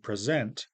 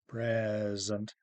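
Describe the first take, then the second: First: The stress is on the second syllable. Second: The stress is on the first syllable. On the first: It is the verb. "the first vowel is shorter, second vowel is longer" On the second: It is the noun. "in the noun present on the left, you see the first, the stressed vowel"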